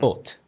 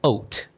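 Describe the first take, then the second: First: The vowel is a flatter sound. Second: The vowel is a round O sound. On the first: The speaker calls it right. "it would be a flatter sound" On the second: The speaker calls it wrong. "Some people may say haute. Is it O, that round sound?"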